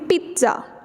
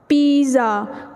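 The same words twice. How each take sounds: First: The middle sound has a t before the s. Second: The middle sound is a plain z without t. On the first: The speaker calls it right. "टी की sound में थोड़ा सा वहाँ पे एक shaky sound भी बनती है" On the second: The speaker calls it wrong. "It's wrong"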